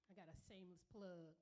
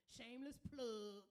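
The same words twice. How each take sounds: First: Said in the usual way. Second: Shameless plug called out loud; playful loud announcement. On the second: Shown as a demonstration. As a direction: punch it like an emcee hype.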